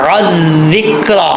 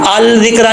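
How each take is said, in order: First: The word starts without an 'l' sound. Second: The word starts with a clear 'l' sound. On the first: The speaker calls it right. "आइन को क्लियर करके अज़िक्रा" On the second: The speaker calls it wrong. "अल जिक्रा नहीं पढ़ना"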